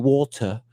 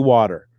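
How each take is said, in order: First: It is said in the son's put-on accent. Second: It is said in the speaker's plain accent.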